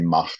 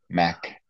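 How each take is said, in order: First: The name ends in a throaty German ch sound. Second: The name ends in a plain English k sound. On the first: The speaker calls it wrong. "With my German, I was going to say Mach" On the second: The speaker calls it right. "the proper pronunciation of his name"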